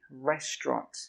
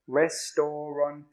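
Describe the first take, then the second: First: The word is said with two syllables. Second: The word is said with four syllables. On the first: The speaker calls it right. "But it's actually restaurant" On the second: The speaker calls it wrong. "I know it looks like it should have four"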